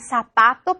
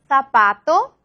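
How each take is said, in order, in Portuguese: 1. O z é pronunciado como s. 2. O z é pronunciado como th. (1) "pero en Latinoamérica" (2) "en la región madrileña se dice zapato"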